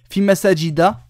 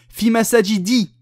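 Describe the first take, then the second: First: The last word ends in a short a. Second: The last word ends in a short i. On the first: The speaker calls it right. "c'est bon" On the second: The speaker calls it wrong. "j'ai pas mis tanwin, erreur"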